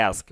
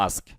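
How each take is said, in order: First: American ask. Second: British ask. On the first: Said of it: "আমেরিকানরা বলে". (ask, American অ্যা ধ্বনিতে) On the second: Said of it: "ব্রিটিশরা বলে". (ask, British আ ধ্বনিতে) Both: Shown as a demonstration.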